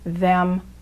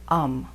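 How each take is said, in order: First: The word is said in full with th. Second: The word is reduced, dropping the th.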